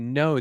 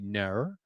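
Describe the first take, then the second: First: The vowel is a plain rounded 'oh' sound. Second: The vowel sounds like 'ner' with an r-like colour. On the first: "They they don't say no" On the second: "they say ner. ... putting that R sound in there"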